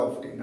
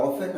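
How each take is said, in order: First: অফটেন with the t clearly sounded, American style; American often. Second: Often with the t left silent, British style. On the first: Teacher showing students the American often, t sounded. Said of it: "আমেরিকানরা বলে". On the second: Teacher showing students the British often, no t. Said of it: "ব্রিটিশরা এটাকে বলে often". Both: Shown as a demonstration.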